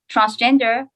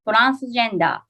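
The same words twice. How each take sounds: First: It is said with an English pronunciation. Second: It is said with a Japanese pronunciation.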